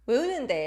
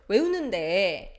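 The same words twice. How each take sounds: First: The ending is cut short. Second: The ending is drawn out long.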